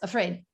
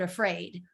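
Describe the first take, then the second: First: The stressed vowel is kept short. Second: The stressed vowel is drawn out long. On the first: The word does not come across clearly. The speaker calls it wrong. "it's not quite long enough" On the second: The word is heard clearly right away. The speaker calls it right. "that was the word afraid"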